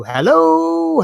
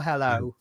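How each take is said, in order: First: One big long hello, higher and louder; phone hello calling. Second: Soft, trailing hello as if unheard; faint phone hello. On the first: Shown as a demonstration. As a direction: stretch the hello out like shouting down a bad line. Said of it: "when you're on the mobile phone and someone can't hear you". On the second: Retold or imitated. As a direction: let the hello fade away. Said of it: "it's the way you said hello".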